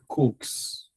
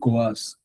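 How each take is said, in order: First: It sounds like Coke with a final s. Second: It ends in a vowel and s, without k. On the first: The speaker calls it right. "it's pronounced like your Coke" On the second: The speaker calls it wrong. "Some people call it coas"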